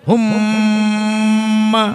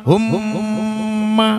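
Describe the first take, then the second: The two takes are said the same way.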